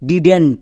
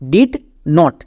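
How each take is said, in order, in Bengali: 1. এটি একটি সংকুচিত শব্দ হিসেবে বলা হয়। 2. এটি দুটি আলাদা পূর্ণ শব্দ হিসেবে বলা হয়। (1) "একসঙ্গে উচ্চারণ করতে যাব" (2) "দুটো ওয়ার্ড আছে"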